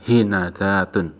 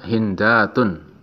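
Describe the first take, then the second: First: The n is followed by an a vowel. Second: The n is followed by no vowel. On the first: "bisa dibaca fathah nunnya" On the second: "nunnya disukun"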